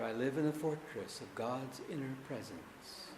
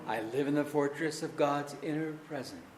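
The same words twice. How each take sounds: First: It is said more quietly. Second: It is said at normal loudness.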